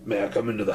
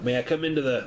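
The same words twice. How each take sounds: First: It is said in a rough, strained voice. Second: It is said in a different, mismatched voice. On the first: The speaker calls it right. "that voice is rough on my windpipe" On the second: The speaker calls it wrong. "I'm doing the wrong voice again"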